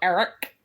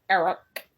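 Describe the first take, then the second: First: It is said in a girly voice. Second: It is said in a normal voice.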